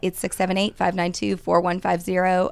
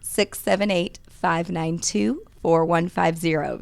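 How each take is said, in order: First: It is said at normal speed. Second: It is said more slowly.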